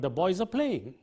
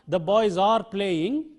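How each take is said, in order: First: 'Are' is reduced to a short weak sound. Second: 'Are' is said in its full strong form. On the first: The speaker calls it right. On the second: The speaker calls it wrong. "It is not"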